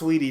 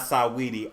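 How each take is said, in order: First: The name is said with two syllables. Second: The name is said with three syllables. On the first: The speaker calls it right. "It's pronounced sweetie" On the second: The speaker calls it wrong. "not Saweetie"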